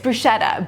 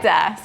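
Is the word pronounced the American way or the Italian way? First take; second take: American; Italian. First: The word is pronounced in an American way. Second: The word is pronounced in an Italian way. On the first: "Americans ... they're gonna say it's bruschetta" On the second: "if you were in Italy ... it's bruschetta"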